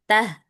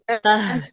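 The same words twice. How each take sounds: First: The h is soft and relaxed. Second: The h is pressed out with force. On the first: The speaker calls it right. "biasa aja" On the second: The speaker calls it wrong. "Jangan terlalu ditekan"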